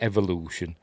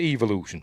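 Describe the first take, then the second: First: It is pronounced in a non-British way. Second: It is pronounced in a British way. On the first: Someone else says it this way. The speaker calls it wrong. "he pronounces it evolution" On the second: This is how it should be said. The speaker calls it right. "it's British. He should pronounce it evolution"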